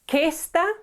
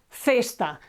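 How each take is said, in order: First: The word begins with a hard k sound. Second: The word begins with a soft th sound. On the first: The speaker calls it wrong. "It's not questa" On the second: The speaker calls it right. "C followed by E or I is pronounced th"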